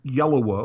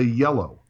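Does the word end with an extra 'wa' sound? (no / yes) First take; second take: yes; no. First: The word ends with an extra 'wa' sound. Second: The word ends plainly on the 'o' sound. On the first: The speaker calls it wrong. "you don't say yellowa" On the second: The speaker calls it right. "you say yellow"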